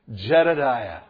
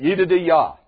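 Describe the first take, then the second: First: The name is pronounced the English way. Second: The name is pronounced the Hebrew way. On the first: "say it with me" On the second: "That's what it really is in the Hebrew"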